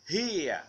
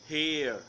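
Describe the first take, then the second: First: The word ends in an ia sound. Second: The word ends in an er sound. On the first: "British here" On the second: "American here"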